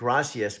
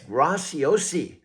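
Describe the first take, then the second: First: The surname ends like Spanish 'gracias'. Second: The surname ends with an 'osi' sound. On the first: The speaker calls it wrong. "you were pronouncing it Gracias" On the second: The speaker calls it right. "but it's Graciosi"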